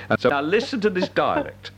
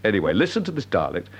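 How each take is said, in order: First: Said in the usual way. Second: Starts with a laugh, then carries on plainly; sheepish chuckle before retrying the intro; laughing restart. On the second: Real, not acted. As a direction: laugh at the slip and say it again.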